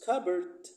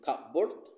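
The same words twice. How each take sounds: First: The p sound is dropped. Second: The p sound is clearly pronounced. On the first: The speaker calls it right. "but we pronounce cupboard" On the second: The speaker calls it wrong. "We don't pronounce them cupboard"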